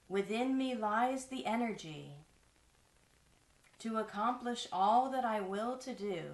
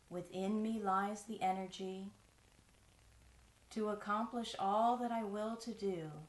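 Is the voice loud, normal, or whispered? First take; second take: loud; normal. First: It is spoken loudly in a strong voice. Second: It is spoken in an ordinary speaking voice. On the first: "out loud in a strong voice" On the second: "in a regular speaking voice"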